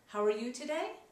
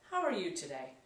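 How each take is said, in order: First: It sounds warm and eager to connect. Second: It sounds cold and distancing. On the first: The asker wants to build rapport. "shows trying rapport" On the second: The asker is pulling away from connection. "Breaking rapport"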